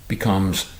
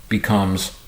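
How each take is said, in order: The two takes are said the same way.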